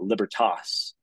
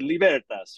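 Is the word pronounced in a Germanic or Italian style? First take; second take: Germanic; Italian. First: It is pronounced in a Germanic-sounding style. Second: It is pronounced in an Italian-sounding style. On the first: The speaker calls it wrong. "they'll pronounce it kind of this Germanic" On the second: The speaker calls it right. "like an Italian, they pronounce it"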